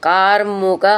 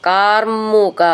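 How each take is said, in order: No difference in how they are said.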